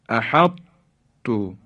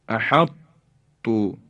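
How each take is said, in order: The two takes are said the same way.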